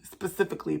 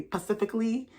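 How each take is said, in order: First: Said in the usual way. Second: "specifically" without its first s, like "pacifically"; altered pronunciation. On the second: Real, not acted. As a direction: say "specifically" as "pacifically", rising at the end. Repeat drops the opening s.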